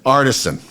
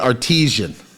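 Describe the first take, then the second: First: It is pronounced like 'artisan'. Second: It is pronounced like 'artesian'. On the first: The speaker calls it right. "It's actually pronounced ar- artisan" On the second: The speaker calls it wrong. "I've been saying artesian"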